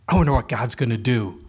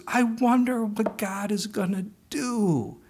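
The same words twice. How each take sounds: First: Bright, cheerful. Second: Slow, savoring. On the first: Retold or imitated. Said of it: "her bright, cheerful smile". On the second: Shown as a demonstration. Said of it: "Those little words".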